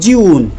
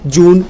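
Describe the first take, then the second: First: It starts with a 'jy' glide sound. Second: It starts with a plain 'j' sound. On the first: The speaker calls it right. "आधा ज यून" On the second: The speaker calls it wrong. "अब school में direct सिखाते हैं"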